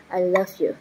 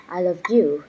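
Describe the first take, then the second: First: I LOVE you with the weight on "love"; "love" stressed, "you" left light. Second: I love YOU with the weight landing on "you"; "you" stressed, "I" and "love" light. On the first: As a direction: hit the word "love", then fall away. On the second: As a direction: lean on the word "you", falling tune. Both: Shown as a demonstration. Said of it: "stress drill, word stress moved".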